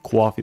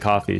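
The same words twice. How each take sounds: First: It is said in a New York accent with a W-like sound. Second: It is said in a plain, neutral accent.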